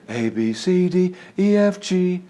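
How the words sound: The voice is relaxed and airy, with leaking breath. The speaker calls it wrong. "you're in the habit of relaxing your vocal cords"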